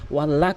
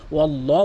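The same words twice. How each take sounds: First: ওয়াল্লাহ with a thin, light ল; wrong pronunciation. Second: ওয়াল্লাহ with a heavy, full ল; correct pronunciation. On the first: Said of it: "কখনোই বলতে পারবেন না". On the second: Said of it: "এখানে কিন্তু ওয়াল্লাহ বলতে হবে". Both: Shown as a demonstration.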